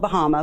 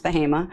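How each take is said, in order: First: "Bahama" said like the islands, buh-HAH-muh; as spelled. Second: "Bahama" said buh-HAY-muh; local pronunciation. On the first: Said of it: "spelled Bahama, but pronounced Bahama". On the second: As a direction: say "Bahama" with a long "ay" in the middle. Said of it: "but pronounced Bahama". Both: Shown as a demonstration.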